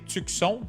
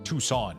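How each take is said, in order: First: The c in the middle is pronounced. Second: The c in the middle is silent. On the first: This is how it is said in French. "in French we say Tucson, so we pronounce the C" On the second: This is how it is said in English. "So now I'm saying it right"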